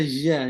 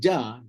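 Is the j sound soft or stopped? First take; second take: soft; stopped. First: The j is soft, without a full closure. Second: The j is stopped, with the tongue closed first. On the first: The speaker calls it wrong. "Tak kenalah ja" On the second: The speaker calls it right. "Kena macam ja, ja. Jadi kena sekat dulu"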